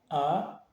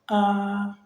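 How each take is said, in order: First: The pitch rises briefly. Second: The pitch stays high and level. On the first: "il est ascendant. Il monte, mais il est bref" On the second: "un ton aigu, constant et continu"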